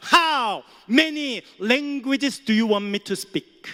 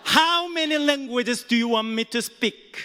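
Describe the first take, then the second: First: Proud, slow, emphatic English retort; boastful booming question; loud retort. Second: Slow, deliberate proud English question; confident emphatic repeat; loud retort again. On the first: Retold or imitated. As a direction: spell it out loudly to the cashier. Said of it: "큰 소리로 말하니까". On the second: Shown as a demonstration. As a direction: lean on each word, proud. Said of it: "다시 해볼까요?".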